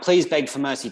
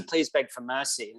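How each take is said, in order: First: Lightly voiced pleading wife, asking once; mild pleading. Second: Same plea again, softer and slow; softer pleading. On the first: Wife pleading with Wallace before his execution, mildly urgent. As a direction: ask him to beg for mercy, a touch urgent. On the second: Retold or imitated. Wife begging Wallace once more, soft and slow. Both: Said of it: "she's like".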